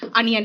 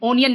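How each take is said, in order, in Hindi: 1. यह शब्द 'ah' ध्वनि से शुरू होता है। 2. यह शब्द 'oh' ध्वनि से शुरू होता है। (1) "अनियन है" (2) "ओनियन नहीं है"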